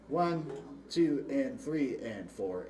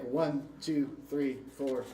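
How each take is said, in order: First: The counting is moderately slower. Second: The counting is very fast.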